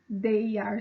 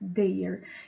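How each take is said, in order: First: It is said as two separate full words. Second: It is said as one short contracted word.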